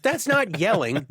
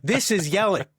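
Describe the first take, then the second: First: Said in the usual way. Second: A raised, higher mock yell; mock yelling demo. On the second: Shown as a demonstration. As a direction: show them what yelling is, half in jest.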